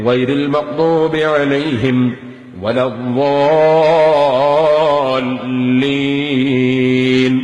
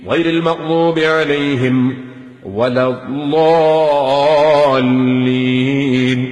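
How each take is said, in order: The two takes are said the same way.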